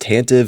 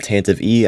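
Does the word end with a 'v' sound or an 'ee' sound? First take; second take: v sound; ee sound. First: The word ends on a 'v' sound. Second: The word ends with an added 'ee' sound. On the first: The speaker calls it right. "it's pronounced Tantive" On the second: The speaker calls it wrong. "not Tantive E"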